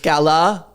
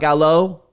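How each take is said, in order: First: The name begins like the word gala. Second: The name begins like the word gallows. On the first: The speaker calls it right. "It's Gala" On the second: The speaker calls it wrong. "not Gallo"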